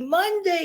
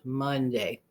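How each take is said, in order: First: It sounds excited and cheerful. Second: It sounds reluctant and full of dread. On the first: The day is something to celebrate. "yay, go, way, Monday, yay, I'm so hip hop happy Monday" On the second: The day is something to dread. "people anticipate things with dread"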